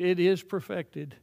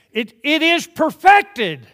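First: Said in the usual way. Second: Loud, high, slow emphatic blurt. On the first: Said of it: "It is finished, it is perfected". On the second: Retold or imitated. Polish convert blurting the phrase, loud and emphatic. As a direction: burst it out with full force. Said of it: "finally blurted it out".

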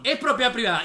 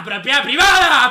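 First: Said in the usual way. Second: Loud, drawn-out yell; mock indignant shout. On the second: Streamer throwing the claim back, drawn-out mocking shout. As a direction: stretch the words out in a mocking bellow.

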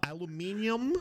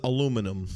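First: "aluminium" stressed late, ending -ee-um; British pronunciation. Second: "aluminum" stressed on LU, ending -num; American pronunciation. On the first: Asking which version is right, "aluminium" said the British -MIN-ee-um way. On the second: Asking which version is right, "aluminum" said the American a-LOO-mi-num way. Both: Shown as a demonstration. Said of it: "is it aluminium or is it aluminum".

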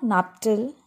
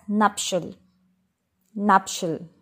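First: "nuptial" as NUP-tul, with a T; wrong pronunciation. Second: "nuptial" as NUP-shul; correct SH sound. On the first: Teacher warning learners off nuptial with T. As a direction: say "nuptial" with a hard T. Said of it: "It is not". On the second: Teacher correcting learners, nuptial as NUP-shul. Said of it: "It is pronounced as". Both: Shown as a demonstration.

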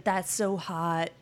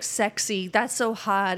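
First: Drawn-out mock flirting; slow flirty praise. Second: Loud mock flirting. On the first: Matches flirting over credit score, slow teasing. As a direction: stretch it, teasing. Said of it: "everybody was matching with her saying". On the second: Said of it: "it was like".

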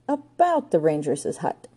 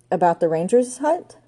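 First: Slow, drawn-out start to bad news; reluctant lead-in. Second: Quicker echo with a rising end; echoed question. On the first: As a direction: ease slowly into an awkward admission. Joan hesitantly starts bad news. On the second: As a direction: repeat it back as a question. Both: A narrator's reading.

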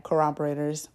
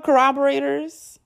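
First: "Corroborators" softly, with no questioning rise; settled on the word. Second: "Corroborators" as a question, much higher, rising at the end; unsure of the word. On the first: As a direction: say "Corroborators" low-key and soft, as decided. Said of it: "I'ma just say that". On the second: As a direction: query "Corroborators" in a high rising pitch. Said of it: "Is that what it's called?". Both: Real, not acted.

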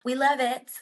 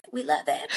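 First: Said in the usual way. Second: Lower, half-whispered "We love it." with a fake sob; mock crying. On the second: Co-host teases about the Ferrari move, mock crying. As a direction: pretend to cry through the words.

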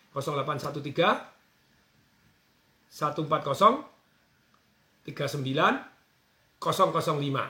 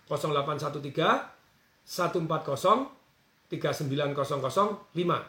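First: Slow, with pauses between digit groups; slowly. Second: Said in the usual way. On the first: Shown as a demonstration. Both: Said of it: "Saya ulangi pelan-pelan ya".

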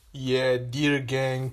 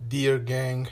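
First: Dear gang stretched long and slow; slow drawn-out greeting. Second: Said in the usual way. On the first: Shown as a demonstration. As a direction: savour each word of dear gang.

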